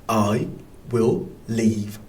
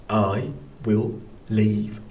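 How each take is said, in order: The two takes are said the same way.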